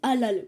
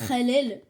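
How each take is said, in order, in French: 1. Il est prononcé avec un accent français simple. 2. Il est prononcé avec un accent arabe exagéré. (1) "ils disent halal, bon, ça va" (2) "ils essaient juste d'avoir l'accent arabe"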